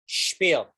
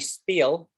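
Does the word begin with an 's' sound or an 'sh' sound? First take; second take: sh; s. First: It begins with a hushing sh sound. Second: It begins with a plain s sound. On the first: The speaker calls it right. "You say shh. Spiel" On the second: The speaker calls it wrong. "Don't say spiel"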